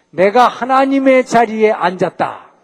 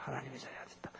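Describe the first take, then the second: First: Louder, slow, higher boast on 하나님의; Satan's boast. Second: "하나님의 자리에 앉았다" murmured far softer and lower; hushed echo. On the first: Preacher voicing Satan's arrogant claim to the congregation, slow, loud boast. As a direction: boast "내가 하나님의 자리에 앉았다" slowly, louder and higher, stressing 하나님의. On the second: Preacher quietly echoing Satan's boast to himself, almost whispered. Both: Acted.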